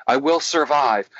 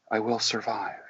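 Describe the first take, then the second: First: Plain-volume, firmer repeat; a bit louder. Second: Very soft, meek attempt; small, hushed voice; timid. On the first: Retold or imitated. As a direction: imitate a client gaining some confidence. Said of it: "Say it louder". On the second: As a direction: imitate a reluctant client. Acting the timid client.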